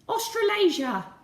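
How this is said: It is said in a silly put-on voice. "you're going to say it in a silly voice"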